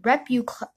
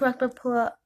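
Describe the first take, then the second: First: Repucla- mangled as repucla, cut off; tongue-tied stumble. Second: Said in the usual way. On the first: Real, not acted. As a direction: trip over Repucla- and stop. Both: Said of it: "I can't say the word".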